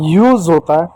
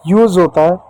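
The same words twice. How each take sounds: The two takes are said the same way.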